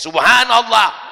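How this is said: It is said pointedly, aimed at someone nearby.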